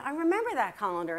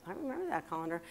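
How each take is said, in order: First: Said in the usual way. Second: Softer, lower private realization; thinking to oneself. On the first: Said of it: "I go, Yeah, yeah". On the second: Retold or imitated. Daughter starting to think about the colander, quiet musing. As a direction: drop it down as a musing aside. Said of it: "And I'm starting to think".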